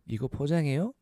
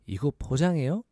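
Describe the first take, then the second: Both takes have the same delivery.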